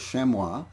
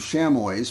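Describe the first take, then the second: First: The word is said with French pronunciation. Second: The word is said without French pronunciation. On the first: The speaker calls it right. "it was a French word and that the correct, correct pronunciation was chamois" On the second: The speaker calls it wrong. "I've been pronouncing them chamois for, for ages"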